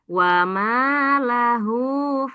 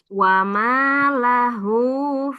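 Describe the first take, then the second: No difference in how they are said.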